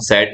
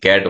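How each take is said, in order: First: The word begins with an s sound. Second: The word begins with a k sound. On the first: The speaker calls it wrong. "हम सेट नहीं बोलते" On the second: The speaker calls it right. "हम सी A T कैट बोलते हैं"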